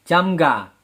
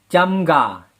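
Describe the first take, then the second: Both takes have the same delivery.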